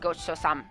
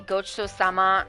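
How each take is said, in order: First: The final vowel is devoiced and nearly dropped. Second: The final vowel is fully voiced. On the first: "he like devoices the ending because that's like more of a tough guy thing" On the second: "Yagami will say"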